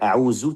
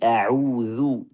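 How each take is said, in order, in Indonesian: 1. Konsonannya bunyi z yang bergetar. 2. Konsonannya bunyi th, ujung lidah dijulurkan. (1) "bukan a'uzu" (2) "tapi a'udzu. Zu, keluarkan ujung lidah Pak sedikit ya"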